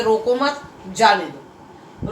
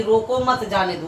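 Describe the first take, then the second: First: रोको मत as one unit, slow, then जाने दो; group रोको मत together, break before जाने दो; pause after मत. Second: Said in the usual way. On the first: Shown as a demonstration. Teacher explaining "let him go", pause after मत. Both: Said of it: "और यहाँ पर है कि".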